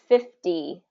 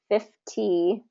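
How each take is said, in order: First: The middle consonant is a soft D sound. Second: The middle consonant is a clear T sound. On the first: "it becomes fifty with a D sound" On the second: "because it's spelled like fifty"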